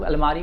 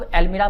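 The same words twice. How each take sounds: First: "अलमारी" with a long aa in the middle, ending in -ree; variant pronunciation. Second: "अलमीरा" with an ee in the middle, ending in -ra; variant pronunciation. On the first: Teacher showing students the other way people say almirah, "अलमारी" with -maaree. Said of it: "कुछ लोग अलमारी बोलते हैं". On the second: Teacher showing students how some people say almirah, "अलमीरा" with -meera. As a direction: say "अलमीरा" as al-MEE-ra. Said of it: "कुछ लोग अलमीरा बोलते हैं". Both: Shown as a demonstration.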